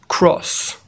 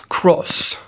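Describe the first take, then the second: No difference in how they are said.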